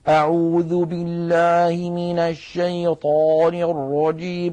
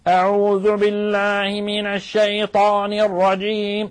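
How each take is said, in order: First: It sounds chewed, as if the mouth is full. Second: It sounds pressed hard from the back throat.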